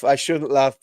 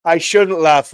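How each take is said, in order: First: Said in the usual way. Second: Louder, laughing through the words "I shouldn't laugh"; still laughing. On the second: Real, not acted. Streamer caught laughing at a comment, still laughing. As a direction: say it while the laugh is still in your voice. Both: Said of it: "you've just made me laugh".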